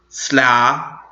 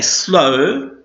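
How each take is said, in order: First: A W sound is pronounced at the end. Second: The final W is silent, ending on the vowel. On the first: The speaker calls it wrong. "We don't say slough, which was how we would pronounce it if we pronounced the W" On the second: The speaker calls it right. "So we say slow"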